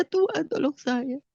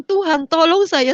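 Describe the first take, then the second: First: Softer, slow, spent plea to God; faded plea. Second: Louder, slow cry for help; pleading prayer. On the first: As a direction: let the plea sink into a softer, slow murmur. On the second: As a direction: beg God for help, slowly and louder. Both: Retold or imitated. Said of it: "Saya cuma bilang".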